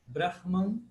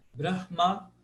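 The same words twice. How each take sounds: First: Brahman with a closed, nasal last syllable; Brahman, no open A at the end; closed final A. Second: Brahma with a lengthened, open last A; open final A. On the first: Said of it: "de um A fechado". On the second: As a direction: Brahma as BRAH-maa. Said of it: "alongar um pouquinho esse A do final". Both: Shown as a demonstration.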